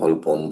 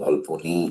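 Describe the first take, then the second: First: The name ends on a bare n consonant. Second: The name ends with an 'ee' vowel. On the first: "অনেকে ভলপন" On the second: "ভলপনি ইত্যাদি ইত্যাদি বলে"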